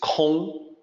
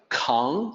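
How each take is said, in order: First: The vowel is a rounded 'o' sound. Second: The vowel is an open English 'ah'-like sound. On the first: The speaker calls it right. "It's Kong with an O sound" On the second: The speaker calls it wrong. "it's not pronounced like Kong, like King Kong"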